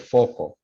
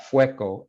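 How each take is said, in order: First: "foco" said with a plain O, FO-ko. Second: "fueco" said with the diphthong, FWEH-ko. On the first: Teacher contrasting forms for students, saying "foco" as plain FO-ko. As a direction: demo of "foco" as FO-ko, no diphthong. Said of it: "instead of". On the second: Teacher contrasting forms for students, saying "fueco" as FWEH-ko. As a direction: demo of "fueco" as FWEH-ko, the changed form. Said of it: "because they're saying". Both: Shown as a demonstration.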